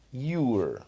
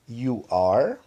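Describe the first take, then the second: First: "Your" (you're) as one falling syllable; contracted form. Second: "You are" as two full words; long form. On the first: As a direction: merge you and are into "Your". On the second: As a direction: model "You are", "are" rising and sounded fully. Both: Shown as a demonstration. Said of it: "diferenciar a forma longa de forma contraída".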